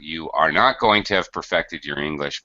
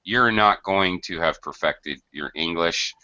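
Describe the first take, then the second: First: 'You are' is said as two full words. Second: 'You are' is contracted into one syllable.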